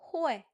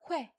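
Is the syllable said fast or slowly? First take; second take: slowly; fast. First: It is said slowly as two separate sounds. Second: It is said fast, blended into one sound.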